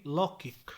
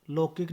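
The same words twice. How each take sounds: First: Said in the usual way. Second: लौकिक with a plain o; mispronunciation. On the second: Shown as a demonstration. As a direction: say lo-kik for लौकिक. (लौकिक को लोकिक बोलें) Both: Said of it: "नहीं".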